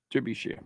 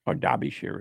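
First: Said in the usual way. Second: "Derbyshire" with first syllable as DAR; English pronunciation. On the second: Shown as a demonstration. Host showing how the English say it, "Derbyshire" as DAR-bee-sheer. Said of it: "as they say".

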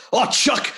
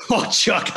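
First: Much higher cartoon take on Chuck. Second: Chuck voice. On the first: Showing Chuck how he voiced him, high cartoon voice. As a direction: sing out the greeting in a high cartoon voice. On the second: Acted. Demonstrating Chuck's cartoon voice to Chuck, higher. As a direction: repeat the greeting in the cartoon voice. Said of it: "so it starts off with, like".

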